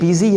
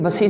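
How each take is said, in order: First: The first syllable sounds like 'biz'. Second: The first syllable sounds like 'bus'. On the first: The speaker calls it right. "ये बिज़ी है" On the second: The speaker calls it wrong. "ये बसी नहीं है"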